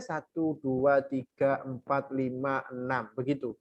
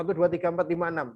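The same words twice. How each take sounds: First: Slow, softer drawn-out count. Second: Quick counting. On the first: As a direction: count each beat slowly and quietly. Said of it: "Kalau bacanya itu pelan". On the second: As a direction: count the six beats briskly. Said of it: "Kalau enam, bacanya cepat". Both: Shown as a demonstration.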